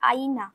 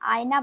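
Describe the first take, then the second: First: The middle sound is a full 'i' vowel. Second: The middle sound is a 'y' glide. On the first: This is the Hindi form. "হিন্দিতে হয় আইনা" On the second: This is the Bengali form. "আয়না বাংলায়"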